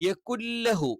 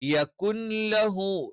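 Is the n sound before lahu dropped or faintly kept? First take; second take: dropped; kept. First: The n vanishes and the l is doubled. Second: A faint trace of the n remains. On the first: The speaker calls it wrong. "അവിടെ നൂന് പരിപൂർണമായിട്ടും പോയിട്ട് ല എന്ത് ചെയ്യും? അവിടെ ഇരട്ടിയായിട്ട് വരും" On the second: The speaker calls it right. "പക്ഷെ അവിടെ ന്യൂൻ നൂൻ ഉണ്ട് എന്ന് മനസ്സിലാവുകയും വേണം"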